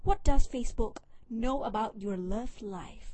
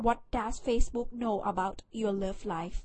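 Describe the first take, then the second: First: Slow, deliberate retake in a more native English accent; careful English accent. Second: Thai-accented English question, a bit flat; a first try at the English that misses the accent; clumsy English accent. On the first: Vlogger retries the English title after botching it, slow careful English accent. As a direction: redo it with the best English accent you can manage. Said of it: "เอาใหม่". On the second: Vlogger reading a stat title aloud, clumsy Thai-accented English. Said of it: "เอ้ย สำเนียงไม่ดี เอาใหม่". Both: Shown as a demonstration.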